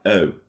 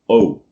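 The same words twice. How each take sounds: First: The vowel is a lighter British gliding sound. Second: The vowel is a full, rounded American o. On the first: "in British English, it will sound like oh" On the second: "American sound would be more, more let's say, full"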